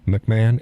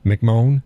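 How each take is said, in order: First: "McMahon" said as mick-MAN; alternative pronunciation. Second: "McMahon" said as mick-MOAN; alternative pronunciation. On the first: Host testing how to say the nominee's surname, mick-MAN pronunciation. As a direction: end "McMahon" in a short A, like man. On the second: Host testing how to say the nominee's surname, mick-MOAN pronunciation. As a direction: end "McMahon" in a long O, questioning. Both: Shown as a demonstration. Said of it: "is that how you pronounce it".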